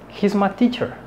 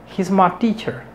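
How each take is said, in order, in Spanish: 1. La palabra my se reduce hacia ma. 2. La palabra my se reduce hacia ma.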